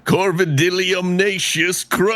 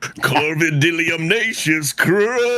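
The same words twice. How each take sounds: First: High showy name announcement; character name flourish. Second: Slower high proclamation; character name flourish. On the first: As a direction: proclaim the crow's full name. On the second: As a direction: draw out the crow's full name. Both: Acted. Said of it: "I kinda wanna hear that one more time".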